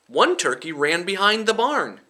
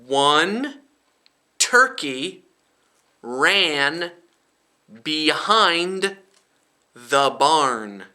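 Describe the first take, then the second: First: The sentence is read at a normal speed. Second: The sentence is read slowly and deliberately. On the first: "Now I'll read it normal speed" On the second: "Now I'll read it slowly for you"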